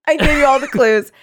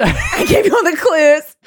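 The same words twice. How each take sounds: First: Said in the usual way. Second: High, loud taunting shout; shouted quote. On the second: Acted. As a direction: yell it as a gloating killer. Shouted repeat of killer's line.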